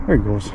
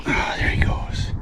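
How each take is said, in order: First: Said in the usual way. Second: Hushed whisper. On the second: Real, not acted. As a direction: whisper as he swims off. Watching a released fish swim away.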